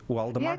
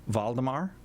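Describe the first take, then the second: First: The name begins with a W sound. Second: The name begins with a V sound. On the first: "with a W" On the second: "I'm going to say it with a V"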